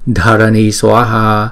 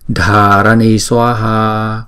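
First: The first vowel is short, one beat. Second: The first vowel is long, two beats. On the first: "Chữ trên là Dharani Swaha" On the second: "chữ Dha này kéo dài hai nhịp"

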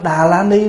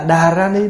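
First: The middle syllable begins with an L sound. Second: The middle syllable begins with an R sound. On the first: "ủa tụng Tâm Đà La Ni đúng" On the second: "nó sẽ gần chữ Phạn hơn"

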